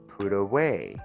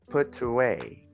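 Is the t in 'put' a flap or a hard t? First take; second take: flap; hard t. First: The t is a quick flap like an r. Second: The t is a clear, hard t sound. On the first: The speaker calls it right. "we have to pronounce the T between two vowels like an R. That's why we say put away" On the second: The speaker calls it wrong. "and not put away"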